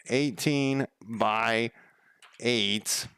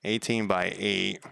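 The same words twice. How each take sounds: First: Eighteen by eight drawn out slowly, word by word; slowly spelling out Eighteen by eight; slow calculating. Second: Said in the usual way. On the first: Shown as a demonstration. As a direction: stretch "Eighteen" slowly while thinking. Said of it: "repeating the sum, slowed". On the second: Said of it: "working out a sum aloud".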